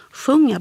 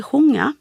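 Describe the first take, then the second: First: Said in the usual way. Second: "sjunga" with the short u turned into a Swedish o, "sjonga". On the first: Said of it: "ett kort U-ljud ofta som ett O-ljud". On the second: Shown as a demonstration. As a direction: darken the u of "sjunga" to an oo sound. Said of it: "så sjunga blir sjunga".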